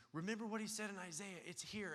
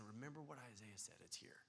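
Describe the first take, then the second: First: Higher, pressing excitement; eager insistence. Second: Much softer, hushed reply; gentle soft answer. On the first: John insisting to Jesus, higher and eager. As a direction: urge it like proof in hand. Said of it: "John was saying". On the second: Jesus gently answering John, much softer. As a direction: answer him quietly and tenderly. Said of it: "And Jesus is saying". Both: Retold or imitated.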